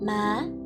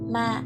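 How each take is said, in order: First: The syllable is said on a rising tone. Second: The syllable is said on a low heavy tone. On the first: "sắc" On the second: "nặng"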